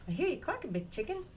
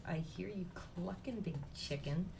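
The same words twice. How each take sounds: First: High, cheeky chick voice; little chicken voice. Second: Softer, slow grumble of a fed-up chick; annoyed little chick. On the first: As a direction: chirp it back at Mama, playful. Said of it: "Little chicken says". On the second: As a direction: drag it out, mildly annoyed. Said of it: "he's sort of a little annoyed". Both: A narrator's reading.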